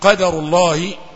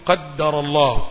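First: The d sound is short and single. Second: The d sound is doubled and held. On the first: The speaker calls it right. "وهذا هو النطق الصحيح" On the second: The speaker calls it wrong. "بعض الإخوة يشدد الدال"

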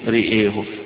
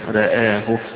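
First: Both vowels are strongly raised toward 'e'. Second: Both vowels are slightly raised, between 'a' and 'e'. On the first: "فيكسر الاثنين أو يميل الاثنين الهمزة والراء" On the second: "لا هي مضجعة ولا هي مفتوحة"

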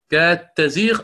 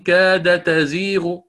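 First: The d sound merges into the following t. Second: The d sound is pronounced separately before t. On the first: The speaker calls it right. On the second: The speaker calls it wrong.

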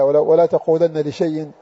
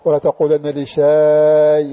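First: The last word is said without an extra long vowel. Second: The last word is said with an extra long vowel. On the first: "كما في قوله تعالى" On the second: "إذا قرأ هكذا خطأ"

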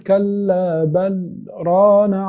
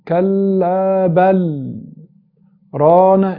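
First: There is a very brief pause after 'bal'. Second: There is a full stop after 'bal'. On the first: It draws attention to something. The speaker calls it right. "كأنك سكت سكتة لطيفة جدا" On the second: The phrase is cut apart, spoiling the meaning. The speaker calls it wrong. "انت كده وقفت"

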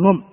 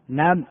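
First: The vowel after the n is a u. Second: The vowel after the n is an a. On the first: The speaker calls it wrong. "لا تقول نم، هذا غلط" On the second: The speaker calls it right. "النم بفتح النون"

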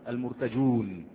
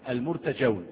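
First: The word ends with a long 'oon' sound. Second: The word ends with an 'awn' sound. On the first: The speaker calls it wrong. "لا تقل المرتجون" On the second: The speaker calls it right. "لان المحذوف الف"

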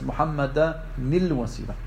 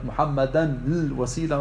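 First: The n links to the l with an i vowel. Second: The n meets the l without a linking vowel. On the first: The speaker calls it right. "macht er aus der ersten Sukun eine Kasra" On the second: The speaker calls it wrong. "Statt Muhammada nil wasila oder sowas"

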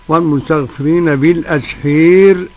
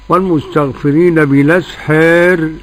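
First: The vowel before the final r is fully raised. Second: The vowel before the final r is slightly raised. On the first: "أبو عمرو بالأسحير" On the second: "ورش"

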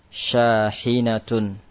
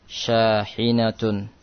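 No difference in how they are said.

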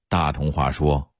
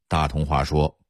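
Both takes have the same delivery.

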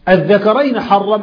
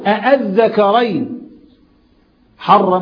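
First: The word starts with a single hamza sound. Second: The word starts with two hamza sounds. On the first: It states as a fact what was forbidden. The speaker calls it wrong. "أنا بأخبرك الله حرم الذكرين، وده مش صحيح طبعا" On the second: It asks disapprovingly what was forbidden. The speaker calls it right. "ده استفهام"

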